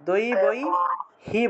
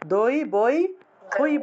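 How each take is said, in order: First: The word ends with the syllable hi. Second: The word ends with the syllable hai. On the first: The speaker calls it right. "দই বই হি বলতে হবে" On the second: The speaker calls it wrong. "দই বই হই বলা যাবে না"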